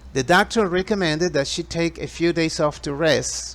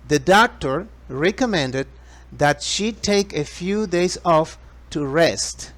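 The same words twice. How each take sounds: First: It is spoken at a faster pace. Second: It is spoken at a slower, normal pace.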